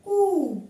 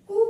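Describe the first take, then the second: First: कु said as कू with a long ऊ; long u sound. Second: कु with a short quick उ; short u sound. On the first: Teacher to pupils, कु with stretched vowel. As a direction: hold the ऊ in कु longer. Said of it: "इसका उच्चारण ज्यादा होगा". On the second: Teacher to pupils, कु with short vowel. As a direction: clip the vowel in कु. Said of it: "छोटा ऊ की मात्रा लगाएंगे". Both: Shown as a demonstration.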